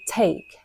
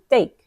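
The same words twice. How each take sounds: First: The T at the start is crisp and emphasized. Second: The T at the start is soft and unemphasized. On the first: "They don't say take" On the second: "They say take, take"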